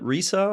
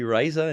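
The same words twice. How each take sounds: First: The name is pronounced like the Spanish word. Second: The name is pronounced as English spelling suggests. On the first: The name echoes a Spanish word. "We call it RISA just because it means laughter in Spanish" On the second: The name follows English spelling rules. "technically I think it phonetically should be RISA in English"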